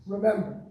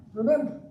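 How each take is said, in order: First: Remember said once, level and falling; solemn remember. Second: Remember pitched higher, rising at the end; urgent remember. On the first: Audience hears the Yiddish word Gedenk, said solemnly. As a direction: let Remember fall, grave and measured. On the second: Audience hears Gedenk repeated, an urgent rising appeal. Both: Shown as a demonstration. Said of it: "this says Gedenk in Yiddish".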